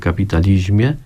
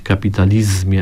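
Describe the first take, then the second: First: The z before -mie is softened to zi. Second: The z before -mie is hard, as spelled. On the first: "w naszej wymowie jest miękkie zi" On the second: "Ona jest równie dobra jak ta nieliterowa"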